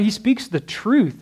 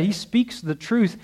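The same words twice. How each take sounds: First: Slow, weighty, falling firmly on truth; emphatic statement. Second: Slow and softer, rising on truth; softer alternate reading. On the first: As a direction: land "truth" with a firm falling tone. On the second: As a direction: let "truth" lift gently upward, held back. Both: Shown as a demonstration. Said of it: "That could be said like that".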